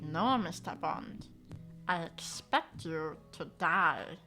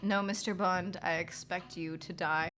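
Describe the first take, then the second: First: It is said in a silly Stitch voice. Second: It is said in his natural voice.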